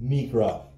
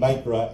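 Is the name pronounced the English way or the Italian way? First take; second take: Italian; English. First: The name is pronounced with Italian-style vowels. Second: The name is pronounced with English-style vowels. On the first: The speaker calls it right. "it's really supposed to be Micra. They're Italian" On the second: The speaker calls it wrong. "why am I saying Micra"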